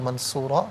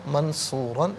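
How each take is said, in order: First: The word ends with a long vowel. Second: The word ends with an n sound. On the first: The reader stops at this word. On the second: The reading continues without a stop.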